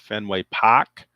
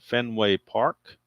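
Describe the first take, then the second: First: It is said in a local northern Boston-style accent. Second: It is said in the speaker's plain accent.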